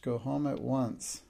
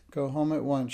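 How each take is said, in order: First: Slower, cold, deliberate order; stern slow repeat. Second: A firm, indignant order, a bit louder; indignant command. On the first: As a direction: spell it out slowly, unbending. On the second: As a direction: command the child sharply, offended. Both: A narrator's reading. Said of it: "she commanded indignantly".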